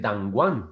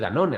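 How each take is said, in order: First: The name ends like the English word 'one'. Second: The name ends in a Spanish-style 'none' sound. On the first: "a lo mejor se dice Dangwan" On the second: "si se dice Danone"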